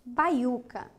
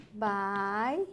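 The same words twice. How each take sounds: First: Said in the usual way. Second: "Baiuca" split bai, u, ca with pauses; syllable by syllable. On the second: Shown as a demonstration. Teacher tests for a hiatus, "Baiuca" split by syllable. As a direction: stretch "bai", then "u", then "ca". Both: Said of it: "Vamos imaginar aqui?".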